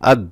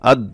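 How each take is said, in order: No difference in how they are said.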